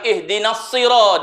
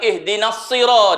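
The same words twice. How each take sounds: First: The s in sirat is heavy and emphatic. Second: The s in sirat is heavy and emphatic.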